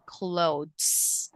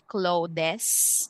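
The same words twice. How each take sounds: First: No extra vowel is pronounced before the final s. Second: An extra vowel is pronounced before the final s. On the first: The speaker calls it right. "pronounced with silent e" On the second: The speaker calls it wrong. "we don't say clothes"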